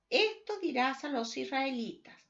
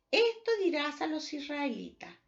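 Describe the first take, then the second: No difference in how they are said.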